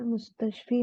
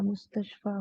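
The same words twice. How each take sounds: First: मुस्तशफी with a final 'fee'; the rejected form मुस्तशफी, closing in 'ee' rather than 'aa'; wrong ending demonstrated. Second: The accepted form मुस्तशफा, closing in 'aa' rather than 'ee'; correct ending demonstrated. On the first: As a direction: end मुस्तशफी on a long 'ee'. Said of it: "इसमें मुस्तशफी नहीं होगा". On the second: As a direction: end मुस्तशफा on an open 'aa', quietly. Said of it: "मुस्तशफा होगा". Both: Shown as a demonstration.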